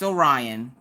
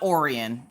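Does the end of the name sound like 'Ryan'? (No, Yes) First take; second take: Yes; No. First: The end of the name sounds like 'Ryan'. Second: The end of the name does not sound like 'Ryan'. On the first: The speaker calls it right. "it's Orion" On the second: The speaker calls it wrong. "it's not Orion"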